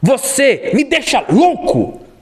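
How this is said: It is said in an irritated tone. "A pessoa está irritada"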